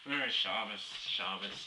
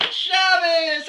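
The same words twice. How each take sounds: First: Low, softer mumbled greeting; mock a low, grudging greeting; unwilling greeting. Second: High, loud, drawn-out greeting; over-friendly shouted greeting. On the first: Shul-goer avoiding talk with passers-by, low unwilling greeting. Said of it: "like they don't wanna say anything to you". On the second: Retold or imitated. Very friendly shul-goer greeting others, high loud shout. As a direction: holler it slowly across the street in mock friendliness. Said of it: "The very friendly ones".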